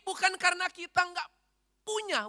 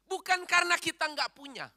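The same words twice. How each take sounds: First: The phrase is said slowly and deliberately. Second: The phrase is said at a normal pace.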